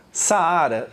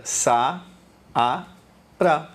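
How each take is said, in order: First: Said in the usual way. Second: "sa, a, ra" as three detached syllables; syllable division. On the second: Shown as a demonstration. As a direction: pause after each piece of "sa, a, ra". ("sa, a, ra" com pausa entre as sílabas) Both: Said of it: "Ficaram em sílabas separadas".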